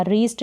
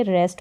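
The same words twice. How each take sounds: First: "रीस्ट" with a long ee vowel; mistaken long EE. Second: "रेस्ट" with an e as in best; E vowel. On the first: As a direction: say "रीस्ट" as if it rhymed with east. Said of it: "रीस्ट नहीं पढ़ेंगे". ("रीस्ट" में लंबी ई) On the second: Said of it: "रेस्ट पढ़ेंगे". ("रेस्ट" में ए की मात्रा) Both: Shown as a demonstration.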